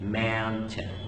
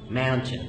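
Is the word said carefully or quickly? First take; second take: carefully; quickly. First: The word is said slowly with every sound clear. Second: The word is said fast with the middle sounds reduced.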